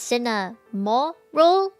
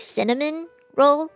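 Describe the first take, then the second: First: No N sound is heard before roll. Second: An N sound is heard before roll. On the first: The speaker calls it right. "There's no N there. It's cinnamon roll" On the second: The speaker calls it wrong. "Please do not say cinnamon roll"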